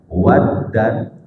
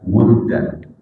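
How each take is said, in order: First: The first vowel is an open 'a'. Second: The first vowel is a rounded 'u'. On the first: "bifathil wawi" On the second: "wa dhammiha"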